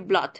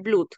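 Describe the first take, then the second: First: The vowel is a short 'uh' sound. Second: The vowel is a long 'oo' sound. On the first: The speaker calls it right. "dije blood" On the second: The speaker calls it wrong. "yo no dije blood"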